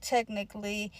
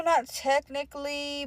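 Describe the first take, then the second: First: TECHNICALLY dropped softer; softly admitted TECHNICALLY, tailing down; lowered concession. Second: Slow, drawn-out TECHNICALLY; firm, deliberate stress on TECHNICALLY; emphatic denial. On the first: Conceding it after denying it. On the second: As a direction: stretch out TECHNICALLY to deny it. Denial set against admission of it. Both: Retold or imitated.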